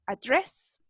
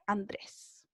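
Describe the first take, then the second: First: "Address" with an American English r, lightly rising; American a-DRESS, no n; gringo accent. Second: Said in the usual way. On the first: Shown as a demonstration. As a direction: model "Address" as an Americanized Andrés. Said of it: "Un poquito más gringa". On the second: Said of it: "Nuestro Andrés".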